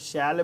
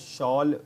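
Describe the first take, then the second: First: The vowel sounds like the one in 'shell'. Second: The vowel sounds like the one in 'shawl'. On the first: This is how it is said in English films. "इसको शैल pronounce करते हैं" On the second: Some people say it this way. "शॉल भी pronounce करते हैं कुछ लोग"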